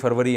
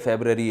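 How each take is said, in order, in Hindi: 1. शब्द 'far' से शुरू होता है और इसमें v की आवाज़ है। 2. शब्द 'feb' से शुरू होता है और इसमें b की आवाज़ है। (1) "उर्दू में जनवरी फरवरी है" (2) "इंग्लिश में"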